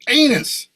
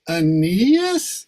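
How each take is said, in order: First: The name is said firmly and confidently. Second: The name is said hesitantly and uncertainly. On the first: The speaker calls it right. "as long as you say them with confidence" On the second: The speaker calls it wrong. "you're not conveying it"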